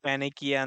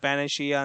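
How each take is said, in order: First: The ending is said with a 'k' sound. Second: The ending is said with a 'sh' sound. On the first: "ಕೆಲವೊಂದ್ ಜನ ಪ್ಯಾನಿಕಿಯಾ ಅಂತಂದ್ ಹೇಳ್ತಾರ" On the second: "ಕೆಲವೊಂದ್ ಜನ ಪ್ಯಾನೇಶಿಯಾ ಅಂತಂದ್ ಹೇಳ್ತೀವಿ"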